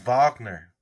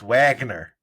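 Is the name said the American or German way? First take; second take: German; American. First: The name is said with a German pronunciation. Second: The name is said with an American pronunciation. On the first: "It's Wagner. He German" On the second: "if you're gonna say it in American, it's Wagner"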